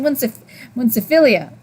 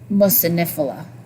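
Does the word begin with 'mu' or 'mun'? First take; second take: mun; mu. First: The word begins with 'mun' with an n. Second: The word begins with 'mu' without an n. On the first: The speaker calls it wrong. "I think I've been saying it wrong for months. I kept saying munciphilia" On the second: The speaker calls it right. "I'm not used to saying it like that"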